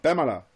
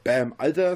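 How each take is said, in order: First: It is said quickly, run together. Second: It is said slowly and clearly.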